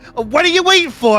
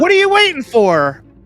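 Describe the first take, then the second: First: It is said in a New York accent. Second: It is said in a plain accent.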